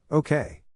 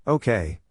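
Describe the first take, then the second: First: Bright, eager and much higher okay; happily agreeing, full of zest; enthusiastic. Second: Muffled, face buried in a shoulder. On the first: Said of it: "responded with an enthusiastic". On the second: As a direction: speak muffled, mouth pressed into a neck. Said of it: "said in a muffled voice". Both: A narrator's reading.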